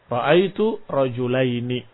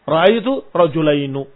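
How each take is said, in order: First: The last word ends with an i vowel. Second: The last word ends with a u vowel. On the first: This is the most common form. "yang masyhur dengan kasrah" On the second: This is an occasional form. "Dan kadang-kadang didomahkan malah"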